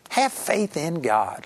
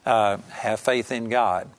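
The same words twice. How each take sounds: First: It is said in an exasperated, rebuking tone. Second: It is said in a plain, calm tone. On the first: The listener should not be surprised by this. The speaker calls it right. "I believe it was more like, "Peter" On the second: It is a simple instruction. The speaker calls it wrong. "I don't believe that he just said"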